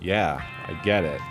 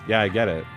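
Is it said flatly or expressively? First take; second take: expressively; flatly. First: It is said with expressive feeling. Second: It is said completely flatly.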